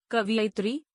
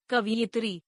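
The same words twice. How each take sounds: First: कवियत्री said "ka-vi-ya-tri"; mispronounced. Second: Said in the usual way. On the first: Shown as a demonstration. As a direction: put the "i" straight after v in कवियत्री. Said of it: "अशुद्ध". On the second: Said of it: "शुद्ध".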